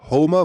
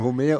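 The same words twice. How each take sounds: First: The name is pronounced in an English way. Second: The name is pronounced in a French-like way. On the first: It refers to the cartoon character. "wenn wir vom Simpson Homer sprechen, ist es Homer" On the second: It refers to the ancient Greek poet. "Warum sprichst du denn Homer so aus, wärst französisch?"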